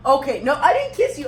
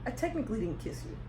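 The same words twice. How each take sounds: First: Louder, higher insistent correction; firm loud denial. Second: Fast, soft muttered denial; quick quiet mumble. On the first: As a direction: correct her firmly, stress didn't. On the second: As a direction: slip it in quickly under breath. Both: Real, not acted.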